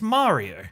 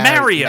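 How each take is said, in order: First: It is said with the common, non-English vowel. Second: It is said with an English accent vowel. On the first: "for the normal people in the world, it's Mario" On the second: "For English people"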